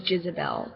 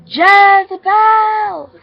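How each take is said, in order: First: Said in the usual way. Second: High, long-held loud call. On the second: Acted. Child calls out for the missing little girl, loud calling. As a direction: holler the name JEZEBEL, stretching it out. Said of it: "I had called what I thought her name was".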